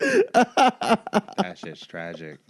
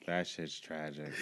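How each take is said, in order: First: Slow, loud, drawn out through a laugh, higher; real laugh carrying the words. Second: Softer, lower, slow, fading into a chuckle; half-laughing aside; quiet laughing repeat. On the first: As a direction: stretch it out while cracking up. Reacting to the joke, laughing. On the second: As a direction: mutter it again as the laugh dies. Repeats it under his breath. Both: Real, not acted.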